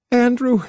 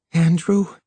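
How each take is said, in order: First: High, startled gasp of a name; gasped in terror. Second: Higher, muffled questioning murmur. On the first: Noyes to Harlan, terror springing into her eyes, gasping. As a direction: gasp the name, pitch leaping up. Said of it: "and gasped". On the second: Noyes held tight against Harlan, muffled. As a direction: say the name into someone's shoulder, pitch lifted. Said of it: "her voice muffled by the pressure". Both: A narrator's reading.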